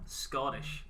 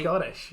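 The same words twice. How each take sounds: First: Scottish dicho con acento americano exagerado; mocking his Scottish. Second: Scottish said his own way, with a laugh. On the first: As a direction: imitate how he said Scottish. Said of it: "how you said Scottish there". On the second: Shown as a demonstration. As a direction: defend how you say Scottish. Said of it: "I didn't say it like that".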